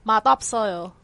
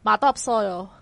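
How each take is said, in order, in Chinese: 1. 两个词连在一起读，部分音会弱化。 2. 两个词连在一起读，部分音会弱化。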